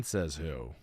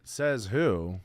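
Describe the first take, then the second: First: Low, soft mock-dumb voice; mocking echo. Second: Said in the usual way. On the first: Mimicking his friend's challenge in a low mock voice. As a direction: echo it back low like a dopey skeptic.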